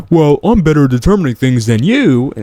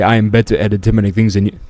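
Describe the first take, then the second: First: Higher, louder mock quote; imitating opponent. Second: Put-on half-hearted British accent; attempted British accent. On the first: Host quoting his opponent back, imitating him higher and louder. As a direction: put on the opponent's claim, pitched up. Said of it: "When he says". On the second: Host mimicking his British opponent, weak British accent. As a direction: try a British accent, not very convincingly. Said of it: "I'm gonna do this British accent".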